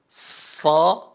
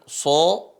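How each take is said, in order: First: The vowel sounds open, like a. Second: The vowel sounds rounded, like o. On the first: The speaker calls it right. "tapi sa" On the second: The speaker calls it wrong. "bukan dibaca dengan so"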